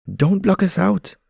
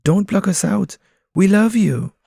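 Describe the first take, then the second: First: High, loud pigeon voice pleading; protesting pigeons. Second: High, loud pleading pigeon voice; protesting pigeons. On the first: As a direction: pigeons protest being shut out. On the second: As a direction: beg him to let them in. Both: Acted. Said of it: "the pigeons protest".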